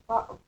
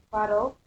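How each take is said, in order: First: "bottle" with the T replaced by a glottal stop. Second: Said in the usual way. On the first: Shown as a demonstration. Teacher demonstrating London accent, "bottle" with glottal T. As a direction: catch the middle of "bottle" in the throat, no T. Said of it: "may be replaced with a glottal stop". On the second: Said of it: "with a glottal stop".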